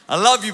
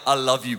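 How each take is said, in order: First: The words are said at raised volume. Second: The words are said at normal volume. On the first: The child is walking further away. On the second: The child is still close by.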